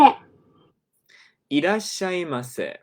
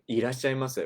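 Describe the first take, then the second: First: A lightly raised clerk-style welcome; imitating store clerk. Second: Said in the usual way. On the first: Shown as a demonstration. Teacher demonstrating the clerk greeting, lightly imitated. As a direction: echo the clerk's greeting with a touch of her lilt. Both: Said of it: "This is our typical store clerk greeting".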